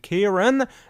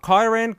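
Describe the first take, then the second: First: The first syllable sounds like 'keer'. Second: The first syllable sounds like 'kye'. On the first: The speaker calls it right. "that's how you pronounce my name" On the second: The speaker calls it wrong.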